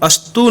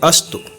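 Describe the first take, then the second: First: The final vowel is held long. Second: The final vowel is short. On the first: The speaker calls it wrong. "अस्तु न बोल के" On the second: The speaker calls it right. "छोटा ऊ की मात्रा है"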